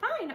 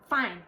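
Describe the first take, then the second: First: It is said in a bright, happy way. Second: It is said in a flat, annoyed way. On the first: The writer actually means it cheerfully. "I'm so happy" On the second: The reader takes the message as dismissive. "you're reading it like"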